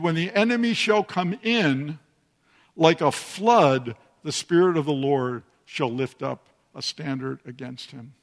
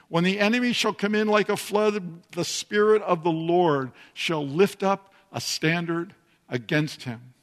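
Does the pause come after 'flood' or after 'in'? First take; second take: in; flood. First: The pause comes after the word in. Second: The pause comes after the word flood.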